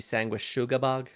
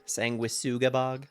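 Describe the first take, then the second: First: The middle consonant is an sh sound. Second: The middle consonant is a plain s sound. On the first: "like an S H sound, like sugar" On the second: "kind of looks like the word sanguine"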